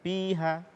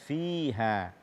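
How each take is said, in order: First: It starts with a p-like sound without breath. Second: It starts with a breathy f sound. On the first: The speaker calls it wrong. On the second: The speaker calls it right.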